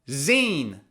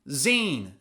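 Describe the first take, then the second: Both takes have the same delivery.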